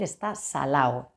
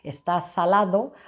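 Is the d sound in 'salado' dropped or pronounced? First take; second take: dropped; pronounced. First: The d sound in the last word is dropped. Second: The d sound in the last word is pronounced. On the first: "esa omisión de la D" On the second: "en lugar de decir"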